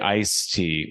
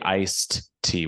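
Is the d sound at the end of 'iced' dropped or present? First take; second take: dropped; present. First: The d sound after 'ice' is dropped. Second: The d sound after 'ice' is clearly pronounced. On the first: This is how the other country says it. "You guys say" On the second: This is how the speaker's own country says it. "We say iced tea with a D"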